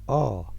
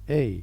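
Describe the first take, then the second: First: The letter name is said the Afrikaans way. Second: The letter name is said a non-Afrikaans way. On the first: The speaker calls it right. "Notice the difference in Afrikaans. It is a" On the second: The speaker calls it wrong. "not a"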